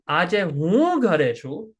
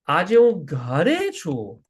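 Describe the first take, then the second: First: The word hu carries the main stress. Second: The word garechu carries the main stress. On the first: It is the speaker, not someone else, who is home. "that means I'm home today, not someone else. Me, I'm the guy who's home" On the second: The speaker is at home rather than at the office. "that means I'm at home today. Like I'm not at the office"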